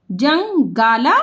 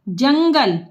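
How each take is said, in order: First: जंगाला drawn out part by part; slow sounding out. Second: Said in the usual way. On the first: Shown as a demonstration. Teacher to pupils, breaking जंगाला apart.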